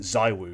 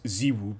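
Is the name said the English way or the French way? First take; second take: English; French. First: The name is said with English vowels. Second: The name is said with French vowels. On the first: "According to French people, we got to pronounce it Zaiwu because he's a I don't know Englishophile" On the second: "if we're French, he's Ziwu"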